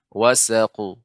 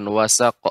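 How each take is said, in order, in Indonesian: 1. Huruf q terakhir berakhir dengan gema pantulan yang pendek. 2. Huruf q terakhir berhenti mendadak tanpa pantulan. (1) "tapi wasaqu" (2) "Bukan wasaq"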